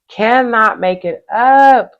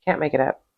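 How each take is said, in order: First: "Cannot make it up" higher, louder and slow, each word spelled out; emphatic. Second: Muttered lower and softer to herself; quiet aside. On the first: Tarot reader stressing to her viewer how striking the cards are. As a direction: hammer home "Cannot make it up" deliberately. Repeated phrase, now emphatic. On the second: Tarot reader muttering to herself over the cards she drew. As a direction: toss it off under the breath. Repeated phrase, second one emphatic. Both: Acted.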